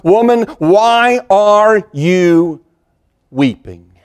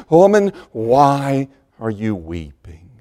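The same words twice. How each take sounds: First: Higher and slow on "Woman, why are you", then sinking on "weeping?"; personal comfort. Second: Slow and lower, a gentle ask; loving comfort. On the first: Jesus calls to grieving Mary at the tomb, drawn-out and tender. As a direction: stretch "why" out in a tender call, let "weeping?" fall. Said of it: "there comes this word of personal comfort". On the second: Jesus speaks to Mary whom he loves, slow and gentle. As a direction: say it softly to someone dearly loved. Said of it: "personal words of comfort for someone that he loved so dearly". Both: Acted.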